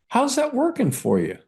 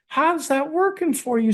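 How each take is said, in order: First: It is said in a plain accent. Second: It is said in a Southern accent.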